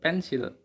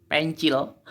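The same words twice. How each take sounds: First: "pensil" said the everyday Indonesian way, pen-sil with an s; Indonesian pronunciation. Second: "Pencil" read as pen-chil, the c as ch; literal Indonesian misreading. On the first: Teacher reading the Indonesian word, pen-sil with s. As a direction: say "pensil" plainly with a clear s. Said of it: "bahasa Indonesia". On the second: Teacher joking about English spelling, read literally as pen-chil. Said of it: "Kalau dalam bahasa Inggris nulisnya seperti ini". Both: Shown as a demonstration.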